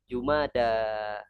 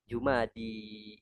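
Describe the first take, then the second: First: The word ends with an open 'a' vowel. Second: The word ends with a close 'i' vowel. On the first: The speaker calls it right. "Yang namanya alif itu pasangannya selalu fathah" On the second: The speaker calls it wrong. "Karena ya itu pasangannya kasroh"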